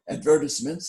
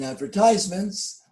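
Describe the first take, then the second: First: It is said in a British-style pronunciation. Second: It is said in a non-British, American-style pronunciation.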